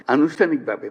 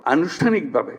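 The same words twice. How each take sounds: First: আনুষ্ঠানিকভাবে set apart alone with a falling finish; stress on the word. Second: Said in the usual way. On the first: Shown as a demonstration. Adviser to victims' families, underlining আনুষ্ঠানিকভাবে with firm stress. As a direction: lean hard on আনুষ্ঠানিকভাবে as its own phrase. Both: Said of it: "আমি শব্দটার উপরে জোর দিচ্ছি".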